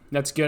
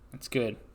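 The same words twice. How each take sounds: First: It is said fast. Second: It is said slowly.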